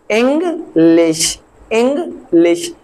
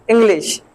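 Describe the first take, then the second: First: इंग्लिश broken slowly in two, ing, then lish; teacher sounding out इंग्लिश as ing... lish; split into syllables. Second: Said in the usual way. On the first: Shown as a demonstration. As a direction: say इंग्लिश as two separate slow beats. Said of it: "एक इंग और दूसरा लिश". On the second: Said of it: "ये अक्सर करके हम".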